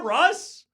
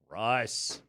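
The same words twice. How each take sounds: First: It is said in a joyful, celebratory tone. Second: It is said in an exasperated, dismissive tone.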